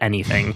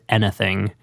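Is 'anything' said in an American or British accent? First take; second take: American; British. First: It is said in an American accent. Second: It is said in a British accent. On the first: The accent the character should have. The speaker calls it right. "the actual American accent" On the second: The actor's real accent slipped through. The speaker calls it wrong. "he says anything instead of anything"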